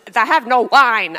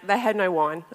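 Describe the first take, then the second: First: It is said with an exaggerated put-on tone. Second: It is said plainly, in a straight tone.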